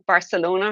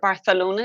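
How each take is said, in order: First: It is said with an English pronunciation. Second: It is said with a Spanish-style pronunciation.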